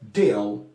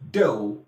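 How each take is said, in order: First: The final L sounds clear. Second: The final L sounds like W. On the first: "you won't hear deal" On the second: "The L changes to W"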